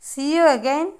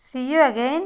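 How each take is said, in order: Both takes have the same delivery.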